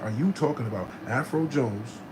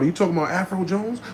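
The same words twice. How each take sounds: First: It is said slowly. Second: It is said fast.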